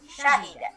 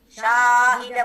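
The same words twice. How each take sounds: First: The vowels in the word are kept short. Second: A vowel in the word is drawn out long. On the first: The speaker calls it right. "tapi syahida" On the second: The speaker calls it wrong. "Tapi jangan dipanjangkan. Bukan syahida bukan"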